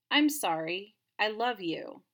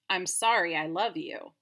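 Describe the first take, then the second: First: There is a pause after sorry. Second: It runs on with no pause after sorry.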